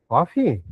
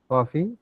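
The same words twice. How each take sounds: First: Coffee. said flatly with a falling tune; naming the drink plainly, falling tune; stating coffee. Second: Coffee? with a rising question tune; offering coffee as a question. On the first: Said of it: "So now you look at the modulation". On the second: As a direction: ask Coffee? with a lift at the end. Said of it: "when I say coffee". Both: Shown as a demonstration.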